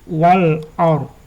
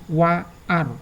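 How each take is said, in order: First: The l sound is clearly pronounced. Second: The l sound is left out. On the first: The speaker calls it right. "Dibaca wal or. Jadi ada L-nya" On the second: The speaker calls it wrong. "bukan wa ar"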